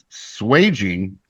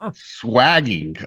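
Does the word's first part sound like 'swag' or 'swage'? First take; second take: swage; swag. First: The first part rhymes with 'page'. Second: The first part rhymes with 'bag'. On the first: The speaker calls it right. "the term is swaging" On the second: The speaker calls it wrong. "the internet pronunciation that I was given for that is incorrect"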